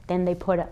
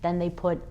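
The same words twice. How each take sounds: The two takes are said the same way.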